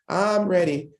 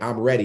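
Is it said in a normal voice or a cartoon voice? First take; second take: cartoon; normal. First: It is said in a SpongeBob impression. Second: It is said in his normal voice.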